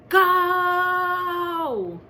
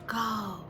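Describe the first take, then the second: First: The word is said very loudly. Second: The word is said quietly. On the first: "very, very loud" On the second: "he practiced it quiet"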